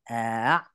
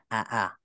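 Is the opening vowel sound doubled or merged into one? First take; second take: merged; doubled. First: One merged vowel sound is heard at the start. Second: Two separate vowel sounds are heard at the start. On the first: The sounds have been assimilated together. "kita idgham kan, jadi a ya" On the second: This is the original form. "Asalnya aa"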